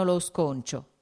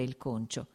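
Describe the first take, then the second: First: "sconcio" with an extra s at the front; slip of pronunciation. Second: Said in the usual way. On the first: A narrator's reading. Manager reporting on workers, mispronouncing it as "sconcio". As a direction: say "sconcio" where "concio" is meant. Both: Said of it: "voleva dire il concio".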